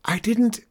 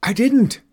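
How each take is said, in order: First: High, quick protest broken off; cut-off protest. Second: High, loud indignant shout; shouted denial. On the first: Daughter defending herself to Mom, protesting. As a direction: start to object and get cut short. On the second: Girl denying sister's accusation to Mom, shouting. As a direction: shout back in protest. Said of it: "I shouted". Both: Acted.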